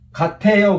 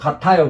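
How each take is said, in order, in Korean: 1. 두 번째 음절에는 'ae' 모음이 있어요. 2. 두 번째 음절에는 'a' 모음이 있어요. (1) "그러면 안 되고" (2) "그래야 돼요"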